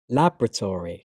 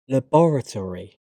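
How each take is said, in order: First: "laboratory" as LAB-ra-tor-ee, stress on the first syllable; American pronunciation. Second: "laboratory" as la-BOR-a-tree, stress on the second syllable; British pronunciation. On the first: Teacher trying the American form, American pronunciation. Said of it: "my American pronunciation". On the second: Teacher reading the British form of each pair, British pronunciation. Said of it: "I'm a British English native speaker". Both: Shown as a demonstration.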